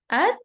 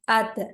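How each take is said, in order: First: The final t stops plainly with no bounce. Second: The final t is released with a bouncing echo. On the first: The speaker calls it right. "So at is a normal sound" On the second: The speaker calls it wrong. "If we say it like at, it's going to be wrong"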